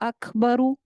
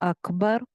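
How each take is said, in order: First: The word ends with its full vowel ending. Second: The word ends abruptly without the vowel ending. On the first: The reading continues without a stop. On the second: The reader stops on this word.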